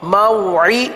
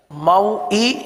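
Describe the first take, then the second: First: موعی with the ain squeezed from the throat; proper ain sound. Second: موئی with a plain hamza catch, no ain from the throat; موئی said as if spelt with hamza; wrong hamza sound. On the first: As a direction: correct the hamza to a real throat ain. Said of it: "عین کی آواز نکالنی ہے". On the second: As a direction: show the mistake, موئی as pure hamza. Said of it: "یہ خالص حمزہ ہے". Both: Shown as a demonstration.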